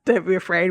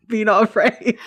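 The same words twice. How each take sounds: First: Said in the usual way. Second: Laughing mock angel. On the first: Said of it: "every time an angel says". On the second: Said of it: "we always rephrase it to".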